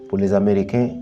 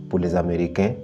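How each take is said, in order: Both takes have the same delivery.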